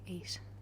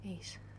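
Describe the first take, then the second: First: The final t is soft. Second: The same.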